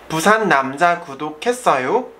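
The pitch rises at the end. It asks a question. "To make question, you have to raise the intonation at the end"

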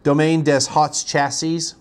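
The name is said with an American accent.

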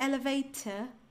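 The middle t is a clear, crisp t sound. "Um britânico diria elevator, t, t, t, t"

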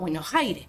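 The S sounds are swallowed into a raspy breath. The speaker sounds like someone from far from the capital. "me como las S y la joteo"

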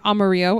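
The word is said with Spanish pronunciation. It names the Spanish word for the color yellow.

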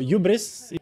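It is said with a French accent.

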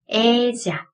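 The double L sounds like a 'zh'. "중남미에서는 네, 약간 지읒 발음이 나니까"

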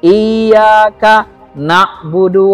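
There is a break after iyyaka. The speaker calls it right. "cara baca yang benar ... Seperti putus dia"

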